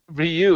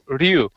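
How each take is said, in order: First: The name is spoken as two syllables. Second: The name is spoken as one syllable. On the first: The speaker calls it wrong. "it's not even Ryu" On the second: The speaker calls it right. "It's one single syllable"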